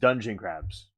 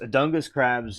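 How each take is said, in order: First: The first word sounds like 'dungeon' with a soft g. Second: The first word sounds like 'dungus' with a hard g. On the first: The speaker calls it right. "pronounced like dungeon" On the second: The speaker calls it wrong. "I'm probably pronouncing it wrong, but that's how I pronounce it in my mind"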